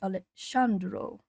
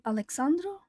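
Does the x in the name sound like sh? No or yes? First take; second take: yes; no. First: The x in the name sounds like sh. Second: The x in the name does not sound like sh. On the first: It is read the way Portuguese would read it. "the X would sound like S H" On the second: It is the likely pronunciation of the name. "But I imagine it's probably"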